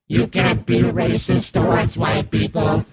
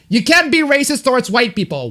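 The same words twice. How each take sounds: First: It is read in a flat, robotic NPC voice. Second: It is read in the speaker's natural voice.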